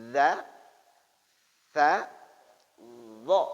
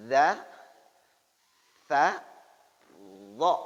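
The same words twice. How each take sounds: The two takes are said the same way.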